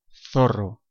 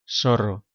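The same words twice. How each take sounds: First: The z is said like English th. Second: The z is said like English s.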